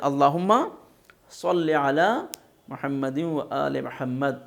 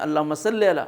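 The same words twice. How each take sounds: First: "صلی" with thick, rounded saad; correct salawat reading. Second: "صلی" with a plain light s; wrong thin seen. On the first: Teacher modelling the prayer correctly, careful saad. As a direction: recite with a heavy s in "صلی". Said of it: "صاد سے صلی". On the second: Teacher quoting how people misread the prayer, thin seen. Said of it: "سین سے پڑھیں گے". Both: Shown as a demonstration.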